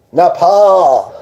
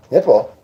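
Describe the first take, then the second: First: "Nepal" with a long, open "paaal"; playful pronunciation. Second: Said in the usual way. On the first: Shown as a demonstration. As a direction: stretch the second syllable of "Nepal", pitched higher. Repeats the name, drawn out differently.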